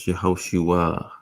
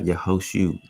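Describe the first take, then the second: First: The name ends with a final 'a' vowel. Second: The name ends on 'u' with no 'a'. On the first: "Yehoshua with an A" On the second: "you can't even say the A according to them, so it would be like Yehoshu"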